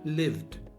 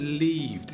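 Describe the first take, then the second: First: The vowel is short, like in live. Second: The vowel is long, like in leave. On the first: The speaker calls it right. "Shorter, short" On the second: The speaker calls it wrong. "You said leaved. It sounds like leave"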